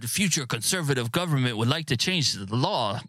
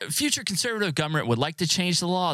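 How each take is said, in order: First: It is read with a put-on French accent. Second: It is read in a plain, natural accent. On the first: "That was shitty French accent" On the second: "just read it normal"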